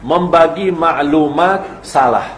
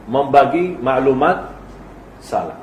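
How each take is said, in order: First: Slow, weighty phrasing of membagi maklumat salah; solemn slow emphasis; deliberate slow statement. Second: Membagi maklumat rising then salah dropped low and soft; salah dropped to a near murmur; repeat with falling close. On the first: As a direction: lay each word down slowly: membagi maklumat salah. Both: Shown as a demonstration.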